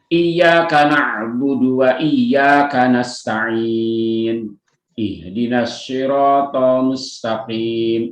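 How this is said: There is a stop before 'ihdinas'. The recitation stops at the verse end. "Itu kalau di wakaf"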